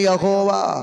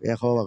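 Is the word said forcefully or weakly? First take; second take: forcefully; weakly. First: The word is said strongly, with force. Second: The word is said lightly, without force. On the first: The speaker calls it right. "శక్తి ఉండాలి మాటలో" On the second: The speaker calls it wrong. "కొంతమంది యెహోవా యెహోవా కాదు"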